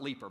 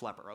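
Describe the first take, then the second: First: The first vowel is a long 'ee' sound. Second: The first vowel is a short 'e' sound. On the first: The speaker calls it wrong. "It's not leaper" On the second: The speaker calls it right. "it's leper"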